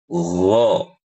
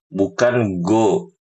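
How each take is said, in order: First: It starts with a smooth, flowing throaty sound. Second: It starts with a hard g sound. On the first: The speaker calls it right. "suaranya halus dan mengalir" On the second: The speaker calls it wrong.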